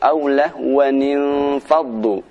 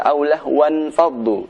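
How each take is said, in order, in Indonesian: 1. Lahwan menyambung dengan tambahan bunyi 'ni'. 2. Lahwan langsung menyambung ke kata berikutnya tanpa nun tambahan. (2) "Tidak benar jika dibaca"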